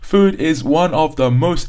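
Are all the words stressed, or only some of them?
all. Every single word carries strong stress. The speaker calls it wrong. "that's an example of too much stress, where every single word is stress"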